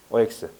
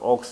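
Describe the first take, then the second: First: O and X are said as separate letters. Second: O and X are run together into one syllable. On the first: The speaker calls it right. "정확하게 하세요" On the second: The speaker calls it wrong. "옥스 하지 말고"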